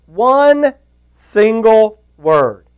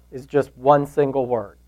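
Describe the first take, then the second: First: "one single word" drawn out very slowly, higher and louder; slow right down on "one single word"; "one single word" dwelt on, each word weighted; stress on one word. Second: Said in the usual way. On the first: Shown as a demonstration. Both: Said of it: "He said one word".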